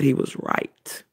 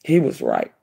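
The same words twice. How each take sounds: First: Unvoiced whisper of He was right; hushed. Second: "He was right" dropped very low and weighty; deep emphatic. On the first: Mother admitting her son was right, hushed. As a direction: breathe "He was right" softly, awed. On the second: Mother stressing her son was right, deep and emphatic. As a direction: lower the voice and land "He was right" heavily. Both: Real, not acted.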